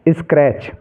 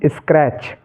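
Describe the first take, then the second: The two takes are said the same way.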